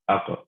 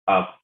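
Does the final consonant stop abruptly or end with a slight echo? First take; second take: echo; abrupt. First: The final consonant ends with a slight echoing bounce. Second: The final consonant stops abruptly with no release. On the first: The speaker calls it right. "there's that little bit of echo there" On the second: The speaker calls it wrong. "it kind of just stops the sound right there"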